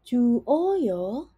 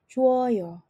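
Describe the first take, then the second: First: The two vowels are said as separate syllables. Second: The two vowels merge into one syllable. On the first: The speaker calls it wrong. "tidak akan berbunyi sebagai ju oyo" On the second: The speaker calls it right. "otomatis langsung berbunyi sebagai juoyo"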